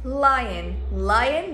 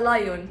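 First: It is one syllable rhyming with lane. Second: It is two syllables starting with lie. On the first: The speaker calls it right. "الاسد لاين" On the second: The speaker calls it wrong. "ولا لايون"

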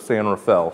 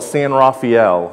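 First: The name is said the way locals say it. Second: The name is said the way Ohio visitors say it. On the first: Locals to the region say it this way. The speaker calls it right. "instead of San Rafael" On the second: Outsiders to the region say it this way. The speaker calls it wrong. "When my family visits from Ohio, they still call it San Rafael"

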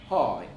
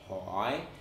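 First: The pitch rises up and then dips down. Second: The pitch dips down and then rises up. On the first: "in Northern Vietnamese, you'd actually rise up and then dip down like hỏi" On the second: "Southern Vietnamese, you would dip down and then rise up like hỏi"

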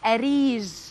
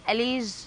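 First: The middle consonant is a clear R sound. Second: The middle consonant is an L sound. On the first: The speaker calls it right. "عطي نموذج صح. لا يا ماما أريج" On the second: The speaker calls it wrong. "مو والله أليج"

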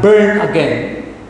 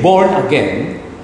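First: The first word has the vowel of 'burn'. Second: The first word has the vowel of 'born'. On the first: The speaker calls it wrong. "not burn again" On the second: The speaker calls it right. "that is the right pronunciation"

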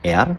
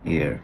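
First: The vowel sounds like the word air. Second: The vowel lies between air and ee-ar. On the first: The speaker calls it wrong. "আমাদের অনেকেই বলি কি এটা এয়ার মানে কান, এটা আসলে এয়ার না" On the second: The speaker calls it right. "এটা হচ্ছে এর মাঝামাঝি"

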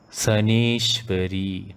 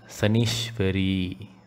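First: The E vowel is held long. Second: The E vowel is said short. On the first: The speaker calls it right. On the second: The speaker calls it wrong.

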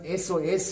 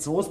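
First: It is spelled out letter by letter. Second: It is said as a single word. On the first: The speaker calls it right. "das heißt SOS" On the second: The speaker calls it wrong. "Das heißt nicht Soß"

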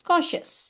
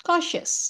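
The two takes are said the same way.

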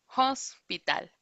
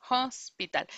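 The two takes are said the same way.

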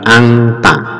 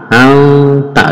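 First: The n is pronounced as an ng sound. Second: The n is hidden with a nasal hum. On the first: The speaker calls it wrong. "juga bukan angta" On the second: The speaker calls it right. "nun sukun ini samar ke huruf ta"

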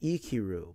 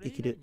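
First: The word is said slowly with drawn-out sounds. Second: The word is said quickly with shortened sounds. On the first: "You can pronounce it Ikiru" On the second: "but then you shorten the sound"

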